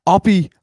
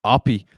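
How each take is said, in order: First: Name yelled much higher and louder; excited shout. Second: Said in the usual way. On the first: Real, not acted. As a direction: shout his name as he breaks through. Rising excitement at breakaway run.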